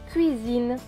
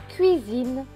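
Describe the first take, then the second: Both takes have the same delivery.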